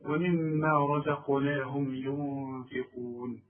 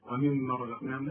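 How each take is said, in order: First: Slow, low ومما with a long hummed mm; held doubled meem. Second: Low, soft ومما with no held m; skipped doubling. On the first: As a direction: recite slowly, lingering on the mm of ومما. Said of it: "كل ميم في القرآن ما دام عليها الشدة". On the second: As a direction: rush through ومما without holding the mm. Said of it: "ما تقولش ومما رزقناهم". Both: Shown as a demonstration.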